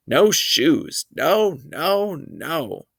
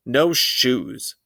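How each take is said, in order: First: Put-on a little boy screaming at the shoe salesman; toddler scream. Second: Said in the usual way. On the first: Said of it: "He screamed". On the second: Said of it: "Fudge said".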